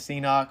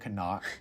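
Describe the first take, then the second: First: It is said like 'see-nock'. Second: It is said like 'ka-nuck'. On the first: This is the casual name they use. "we call it the Ceanoc" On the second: This is the official pronunciation. "it's technically pronounced the Canuck"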